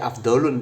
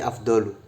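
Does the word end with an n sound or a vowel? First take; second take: n sound; vowel. First: The word ends with an added n sound. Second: The word ends on a vowel, no n. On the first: The speaker calls it wrong. "Makanya tidak dibaca afdolun" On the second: The speaker calls it right. "tapi afdolu tanpa tanwin"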